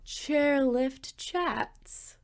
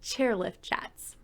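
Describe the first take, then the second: First: It is said slowly, in a seductive tone. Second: It is said at normal speed, plainly.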